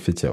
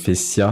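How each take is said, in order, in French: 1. Le son du milieu est un T. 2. Le son du milieu est un S. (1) "Tiens avec un T" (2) "avec deux S"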